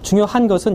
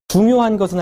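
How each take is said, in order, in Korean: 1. 이 구절은 강조 없이 평평하게 말합니다. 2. '중요'는 강조되고 길게 발음합니다. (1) "여러분이 말할 때 어떻게 하냐면" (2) "중요가 강조가 돼 있잖아요"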